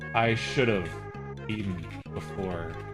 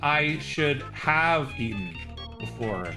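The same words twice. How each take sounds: First: The word 'have' is reduced to sound like 'of'. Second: The word 'have' is said in full. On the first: "people tend to reduce it to like" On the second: "It's actually"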